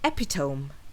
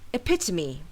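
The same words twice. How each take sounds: First: The stress is not on the second syllable. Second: The stress is on the second syllable. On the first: The speaker calls it wrong. "I've heard many English language learners pronounce this word as epitome" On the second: The speaker calls it right. "with the stress falling on the second syllable"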